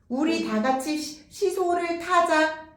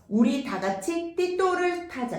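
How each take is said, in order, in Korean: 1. 시옷 소리는 또렷한 s 소리로 발음돼요. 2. 시옷 소리는 t 같은 소리로 바뀌어 발음돼요.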